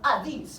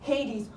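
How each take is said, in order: First: The name has a Greek-style pronunciation. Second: The name has the usual English pronunciation. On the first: The speaker calls it right. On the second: The speaker calls it wrong.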